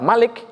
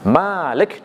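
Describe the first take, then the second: First: The first vowel is kept short. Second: The first vowel is drawn out long. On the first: It means king. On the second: It means the one who owns.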